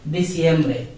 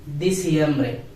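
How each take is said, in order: The two takes are said the same way.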